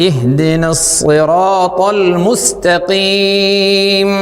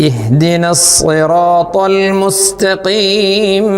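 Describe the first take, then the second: Both takes have the same delivery.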